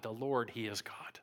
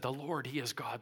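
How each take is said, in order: First: Breathless whisper, lower pitch; hushed whispered worship; whispered awe. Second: Said in the usual way. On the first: Retold or imitated. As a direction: whisper it as if overwhelmed. People fall on faces, proclaim.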